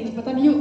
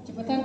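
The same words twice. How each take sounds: First: Gentle invitation. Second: Said in the usual way. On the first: Shown as a demonstration. Husband shows how he should have asked his wife. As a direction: say it kindly, inviting. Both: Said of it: "harusnya saya bilang gini".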